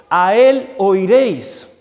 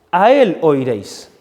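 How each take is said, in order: First: "él" stressed, very slow and weighty; solemn scripture quote. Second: Said in the usual way. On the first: Shown as a demonstration. Preacher quoting Moses' prophecy, slow and solemn. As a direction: let "A él oiréis" fall slow and grave.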